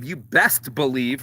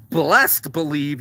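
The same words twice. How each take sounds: First: Said in the usual way. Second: "blessed believe" said slowly, blessed in place of best; slow drawn-out "blessed believe". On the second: Shown as a demonstration. Correcting himself, he first says "blessed believe" slowly.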